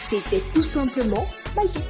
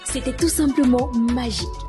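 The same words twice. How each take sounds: First: The pitch of the voice varies. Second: The speed of the voice varies. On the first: "varier la hauteur" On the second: "Et la vitesse de notre voix"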